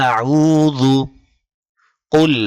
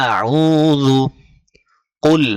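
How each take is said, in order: No difference in how they are said.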